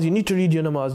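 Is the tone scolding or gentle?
scolding. It is shouted in a scolding tone.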